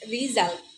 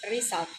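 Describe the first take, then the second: First: The middle consonant is a buzzing 'z'. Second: The middle consonant is a hissing 's'. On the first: The speaker calls it right. "should be pronounced is" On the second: The speaker calls it wrong. "but it's pronounced is"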